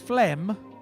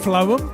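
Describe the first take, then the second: First: The name is said as one syllable, like flem. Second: The name is said as two syllables, like flo-em. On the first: The speaker calls it wrong. "which to me is phlegm" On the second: The speaker calls it right. "phloem, like poem"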